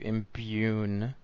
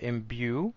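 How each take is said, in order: First: The word has an n sound before the end. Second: The word ends in a vowel with no n. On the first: The speaker calls it wrong. "I'm gonna turn that into imbune" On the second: The speaker calls it right. "she says this word imbue"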